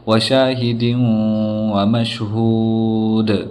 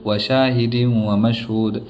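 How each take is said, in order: First: The vowel is drawn out and the final d bounces. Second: The vowel is short and the final d is weak. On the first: The speaker calls it right. "थोड़ा सा खींच करके फिर उसके बाद में दाल को अच्छे से ज़ाहिर करना है" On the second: The speaker calls it wrong. "ज़्यादा खींचते नहीं और ना बराबर सही से वफ़ करते हैं"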